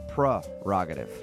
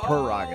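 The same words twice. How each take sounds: First: The first syllable is pronounced 'pre'. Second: The first syllable is pronounced 'per'. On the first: The speaker calls it right. "It starts with a P-R-E, so it's prerogative" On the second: The speaker calls it wrong. "not prerogative"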